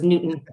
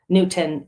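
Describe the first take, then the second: First: The T in the middle is dropped or swallowed. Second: The T in the middle is clearly pronounced. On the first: This is how most other people say the name. "Everyone says Newton" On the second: This is the owner's own way of saying the name. "I know I pronounce the T"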